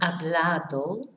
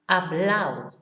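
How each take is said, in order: First: The ending is said with a clear d. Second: The ending is said without the d.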